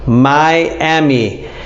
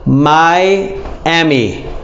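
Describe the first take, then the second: Both takes have the same delivery.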